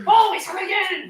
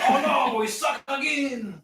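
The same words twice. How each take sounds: First: High, loud put-on Asian accent; mock Asian accent. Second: High, drawn-out mock Creole accent. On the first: Echoing a buddy's catchphrase, exaggerated mock Asian accent. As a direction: shout it high in a caricatured Asian accent, then drop. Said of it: "I thought I sounded like stereotypical Asian". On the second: Shown as a demonstration. Showing a buddy the catchphrase, exaggerated Creole accent. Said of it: "now that sounds Creole".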